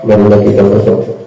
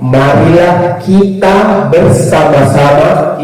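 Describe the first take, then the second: First: The vowels are mumbled with the mouth barely open. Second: Each vowel is spoken clearly with an open mouth. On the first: The speaker calls it wrong. "makanya mulut ini harus dibuka" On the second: The speaker calls it right. "itu jelas"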